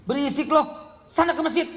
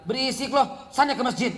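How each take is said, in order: First: Hammed-up father chasing the kid out; annoyed father. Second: Lightly voiced father shooing the kid off; a hint of a weary dad sending the child away; tired father telling the noisy child to leave, mildly. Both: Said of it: "Akhirnya bapaknya bilang".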